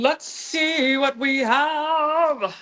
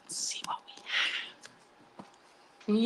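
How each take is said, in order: First: Slow, bright reveal; excited reveal. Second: Hushed, slow whisper. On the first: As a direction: draw it out with excitement. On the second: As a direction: whisper it slowly in suspense. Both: Real, not acted. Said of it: "Think good thoughts".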